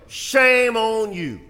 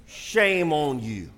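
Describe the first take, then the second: First: A raised, ringing scolding; slow loud rebuke. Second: A quiet, disappointed scolding; slow quiet rebuke. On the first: Preacher loudly shaming fathers, slow and high. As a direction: Shame on you said higher, louder and slow. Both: Shown as a demonstration. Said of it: "repeated rebuke".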